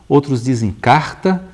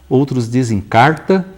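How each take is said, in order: The two takes are said the same way.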